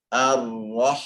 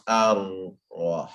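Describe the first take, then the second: First: Ar-rah with the second r made by the tongue; one rolled r carried straight into rah in ar-rah; correct lipless ra. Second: Ar-rah slowed so that rah turns into 'wah'; drawn-out ar-rah with a w sliding in; wrong lip-made w. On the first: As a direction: say ar-rah without rounding the lips. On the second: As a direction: round the lips into a w in ar-rah. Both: Shown as a demonstration. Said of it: "not ar-rah".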